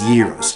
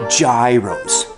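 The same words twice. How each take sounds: First: The word begins with a Y sound. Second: The word begins with a J sound. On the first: This is how it is said in Greece. The speaker calls it wrong. "it rhymes with heroes" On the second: This is the American way of saying it. The speaker calls it right. "like I do"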